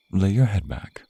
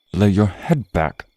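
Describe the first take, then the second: First: Said in the usual way. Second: Repeated louder and slower, "your" leaned on; insist, no longer asking; stern repeat of the order; firmer command. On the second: Acted. You're not following my orders.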